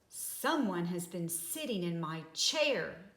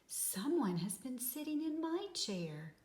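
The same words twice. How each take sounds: First: It is said in a great big voice. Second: It is said in a middle-sized voice.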